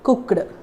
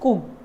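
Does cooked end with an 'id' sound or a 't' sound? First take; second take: id; t. First: The ending sounds like an extra 'id' syllable. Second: The ending is a short 't' sound. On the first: The speaker calls it wrong. "They say they use the word id" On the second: The speaker calls it right. "Just change that ed sound as t"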